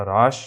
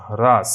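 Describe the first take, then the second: First: হ্রাস said "raash", silent h; Bengali pronunciation. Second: হ্রাস said loud as "hraas"; Hindi pronunciation. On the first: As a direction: begin হ্রাস straight on the r. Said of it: "এর বাংলা হচ্ছে হ্রাস". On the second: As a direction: sound the h before r in হ্রাস, forcefully. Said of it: "হিন্দিতে হর উচ্চারণ হবে". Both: Shown as a demonstration.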